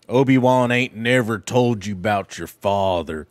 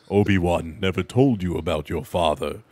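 First: It is said in a casual, everyday voice. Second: It is said in a deep Darth Vader voice.

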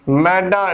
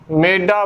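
First: The first vowel is an open 'ai' sound. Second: The first vowel is a closer 'e' sound. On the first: The speaker calls it right. "ਮੰਮੇ ਨੂੰ ਦੁਲਾਮਾ ਬੋਲਣਾ" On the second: The speaker calls it wrong. "ਨਾ ਕਿ ਮੇਡਾ ਬੋਲਣਾ ਹੈ"

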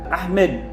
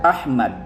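First: The second syllable has an 'e' vowel. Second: The second syllable has an 'a' vowel. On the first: This is the casual, colloquial form of the name. "itong mga ganong bigkas is pang-colloquial" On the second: This is the full, formal form of the name. "tamang pagkabigkas"

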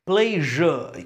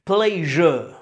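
First: The middle consonant is a soft zh sound. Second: The same.

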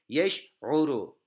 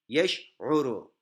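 First: The word ends with a final u vowel. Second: The word ends with a final u vowel.

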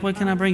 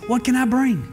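First: The question sounds half-hearted and insincere. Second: The question sounds eager and sincere. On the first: The speaker does not really mean to bring anything. The speaker calls it wrong. "Some of you are like, ... And you never show up with anything" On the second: The speaker really means to bring something. The speaker calls it right. "Say it like this, ... Now you got to say it like you're really going to bring something"

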